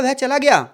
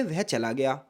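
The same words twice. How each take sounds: First: वह चला गया asked higher and louder as a question; a stressed, questioning वह चला गया; question tune. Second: Said in the usual way. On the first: Shown as a demonstration. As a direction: push it up as a question. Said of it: "मैंने जोर दिया तो प्रश्नवाचक हो गया". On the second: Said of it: "ये सामान्य है".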